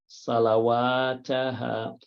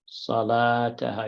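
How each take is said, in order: First: The middle 'wa' sound is pronounced aloud. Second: The middle 'wa' sound is left silent. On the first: The speaker calls it wrong. "I read it wrong for a reason" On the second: The speaker calls it right. "The wa actually will be silent"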